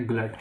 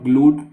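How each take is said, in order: First: ग्लट with a short "uh" vowel; correct pronunciation. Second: ग्लूट with a long "oo" vowel; wrong pronunciation. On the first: Teacher showing students how to read it, ग्लट with short "uh". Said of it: "because इसको हम बोलेंगे". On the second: Teacher warning students off a misreading, ग्लूट with long "oo". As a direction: say ग्लूट, stretching the vowel to "gloot". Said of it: "मत पढ़ना". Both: Shown as a demonstration.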